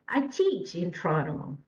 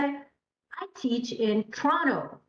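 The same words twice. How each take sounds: First: The stress falls on the word teach. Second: The stress falls on the word Toronto. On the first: It answers what the speaker does. "So the stress is on teach" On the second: It answers where the speaker teaches. "Toronto, exactly, because this is the answer for where"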